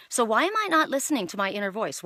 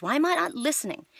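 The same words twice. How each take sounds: First: Said in the usual way. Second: Why am I not listening, pitched higher on the repeat; emphatic repeat. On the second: Real, not acted. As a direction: press the question on yourself.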